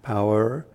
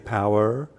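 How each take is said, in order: First: The word is drawn out into two syllables. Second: The same.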